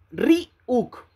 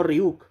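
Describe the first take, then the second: First: "Ryuk" split in two, "Ri... uk", high then falling; syllable-by-syllable demo. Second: "Ryuk" run together with a misplaced accent; wrong pronunciation. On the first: Streamer teaches his name to the rival, exaggerated syllable split. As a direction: spell out "Ryuk" slowly by syllables. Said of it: "No hay ningún acento". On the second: Streamer rejects the misreading of his name, mock wrong pronunciation. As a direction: quote the mistaken "Ryuk" to reject it. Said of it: "no Ryuk". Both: Shown as a demonstration.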